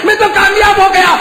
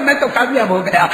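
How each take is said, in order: First: High, loud triumphant cry; shouted. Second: Said in the usual way. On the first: Acted. Martyr proclaiming success to God, loud high cry. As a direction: cry it out in victory. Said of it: "repeated line". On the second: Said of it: "repeated line, second shouted".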